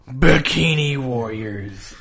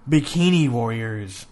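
First: The title is said with more passion. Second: The title is said flatly, without passion.

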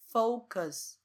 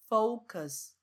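The two takes are said the same way.

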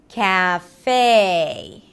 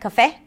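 First: The first syllable is drawn out, not reduced. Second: The first syllable is short and reduced. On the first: The speaker calls it right. "but in American English. So you drag it" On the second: The speaker calls it wrong. "Not cafe"

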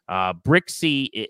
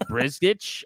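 First: The name is said as Brixey. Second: The name is said as Brizgich. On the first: The speaker calls it right. "that's how you say his name" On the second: The speaker calls it wrong. "So it looks like Brizgich"

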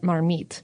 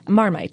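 First: It is said with a French accent. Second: It is said with an English accent.

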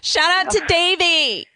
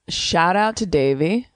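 First: It is said with lively, enthusiastic energy. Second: It is said flatly, with little energy. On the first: The speaker calls it right. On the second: The speaker calls it wrong.

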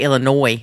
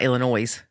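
First: The final s is silent. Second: The final s is sounded. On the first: The speaker calls it right. "I had to work really hard to say Illinois" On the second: The speaker calls it wrong. "not Illinois"

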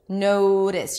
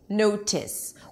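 First: The middle consonant is a quick, light flap. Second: The middle consonant is a crisp, released T. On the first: "then the T changes to re" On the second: "if I pronounce it with a true T"

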